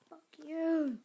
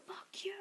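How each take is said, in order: First: Loud, higher curse at the game; angry shout. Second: Higher whispered curse. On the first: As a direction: blurt it out furious at losing. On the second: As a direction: hiss it under your breath after the yell. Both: Real, not acted. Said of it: "I get really mad when I'm losing".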